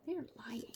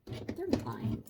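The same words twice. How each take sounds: First: Breathy whispered repeat. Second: Deep mock voice. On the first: Real, not acted. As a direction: hush it. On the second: Low spoof voice.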